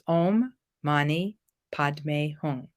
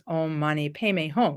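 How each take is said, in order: First: It is said with the Sanskrit pronunciation. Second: It is said with the Tibetan pronunciation.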